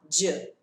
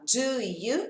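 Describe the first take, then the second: First: The two words merge into one j sound. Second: The two words are said as separate sounds. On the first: "eu vou falar j. É um som só" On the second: "ao invés de eu falar do you"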